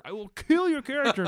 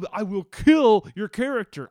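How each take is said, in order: First: Repeated with "kill" pushed much higher and louder. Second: "kill" hit loud, a firm loud warning; loud threat. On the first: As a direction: say it again, pitch jumping up on "kill". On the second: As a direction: warn him loudly, leaning on "kill". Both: Retold or imitated. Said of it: "is pleading with Tyler".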